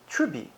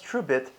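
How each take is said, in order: First: The word ends without the final t sound. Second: The word ends with a clear final t sound.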